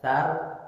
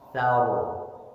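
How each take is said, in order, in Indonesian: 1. R di akhir itu tipis dan ringan. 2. R di akhir itu tebal dan berat. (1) "tidak sar" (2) "ro ketika waqaf sebelumnya fathah dibaca tebal"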